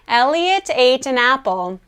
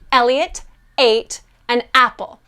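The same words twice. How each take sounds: First: Each word starts gently without a throat pop. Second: Each word starts with a small throat pop. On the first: The speaker calls it right. "What we want to do instead is have an easy onset" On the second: The speaker calls it wrong. "with glottal onsets would sound like this"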